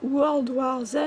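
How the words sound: It is said with a French accent. "à la française"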